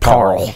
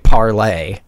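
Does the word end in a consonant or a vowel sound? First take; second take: consonant; vowel. First: The word ends on the consonant sound. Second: The word ends with an audible vowel sound. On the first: The speaker calls it right. "I think you just say like parle" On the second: The speaker calls it wrong. "I don't think you say parlay"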